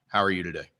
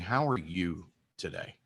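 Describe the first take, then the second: First: It is rattled off quickly without a stop. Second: It is said slowly after a deliberate stop. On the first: A routine, automatic greeting. "a waitress that comes up and says" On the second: A sincere question that gets a different response. "Or you stop and say"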